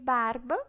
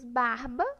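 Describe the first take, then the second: First: The R is a weak, quick tap. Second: The R is a strong, rough sound. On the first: "R fraco" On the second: "R forte"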